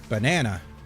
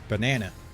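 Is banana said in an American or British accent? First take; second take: American; American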